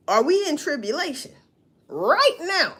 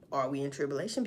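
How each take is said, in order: First: "Are we in tribulation right now?" pushed up high and loud; louder pressing question. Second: "Are we in tribulation?" dropped low and soft; quiet musing question. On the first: Asking viewers pointedly, louder and higher. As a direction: demand the answer, voice rising high on "right now". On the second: Wondering aloud to viewers, low and soft. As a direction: ask it to yourself, much softer. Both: Real, not acted.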